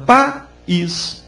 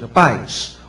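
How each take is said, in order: First: The i is said as its own syllable. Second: The i glides together with the a. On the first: "o I é pronunciado separadamente" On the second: "O I eu não pronuncio fortemente. Ele sai junto com o A"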